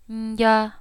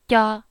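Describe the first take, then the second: First: The syllable is quieter and softer. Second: The syllable is crisp with little air. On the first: "I'm going to say it softer" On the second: "I'm clear, I'm about to go"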